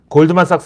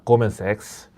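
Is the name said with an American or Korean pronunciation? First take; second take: Korean; American. First: The name is said with Korean-style syllables. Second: The name is said with New York pronunciation. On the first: The speaker calls it wrong. "골드만삭스요 하면 아무도 못 알아듣습니다" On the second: The speaker calls it right. "뉴욕 현지 발음으로 고먼 섹스거든요"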